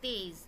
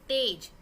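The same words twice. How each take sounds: First: The word is said softly and gently. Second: The word is said loudly and forcefully. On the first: "उसी को मैं तेज ऐसे बोल रही हूँ" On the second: "तेज बोल रही हूँ"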